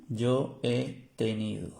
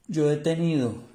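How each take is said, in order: First: "yo he tenido" drawn out slowly, evenly; slow careful demo. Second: "Yo" punched higher and louder; stress on YO. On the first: ("yo he tenido" despacio, con cuidado) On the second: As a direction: hit "Yo" hard, then fall. (énfasis fuerte en "Yo") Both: Shown as a demonstration. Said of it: "Esto es en español".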